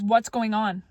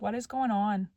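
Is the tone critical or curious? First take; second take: critical; curious. First: It is said in a heated, critical tone. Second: It is said in a light, curious tone. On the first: The speaker is blaming the other person. The speaker calls it wrong. "If it is said in that way, that's going to create a defensiveness" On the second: The speaker genuinely wants to understand. The speaker calls it right. "hey, I'm so curious"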